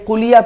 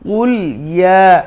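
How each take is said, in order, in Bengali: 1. দুটো শব্দ একসাথে মিলে এক হয়ে যায়। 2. দুটো শব্দ পরিষ্কারভাবে আলাদা রাখা হয়। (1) "মিলিয়ে কুলিয়া পড়ে ফেলি, কিন্তু এটা ভুল" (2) "সঠিক হলো কুল ইয়া"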